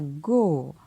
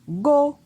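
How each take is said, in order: First: The syllable is said on a falling tone. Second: The syllable is said on a high tone. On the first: "Et un ton descendant" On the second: "Un ton haut"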